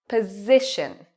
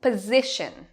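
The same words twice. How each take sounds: First: Slow Position, SI long and loud; stress on SI. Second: Position with SI longer and louder; stress on SI. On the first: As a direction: stretch SI in Position. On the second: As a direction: lean on SI in Position. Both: Shown as a demonstration. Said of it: "What part is louder and longer?".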